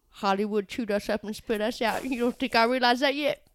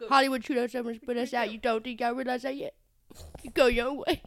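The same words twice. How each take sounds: First: Lightly voiced small town American accent, mother; a hint of a small town accent, mournful. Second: Quick imitated small town American accent, mother; fast, a touch of a small town accent; small town accent, rushed. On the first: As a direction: imitate the small town mom's accent, heartfelt. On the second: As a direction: rattle off the small town mom's line. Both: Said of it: "this amazing small town accent".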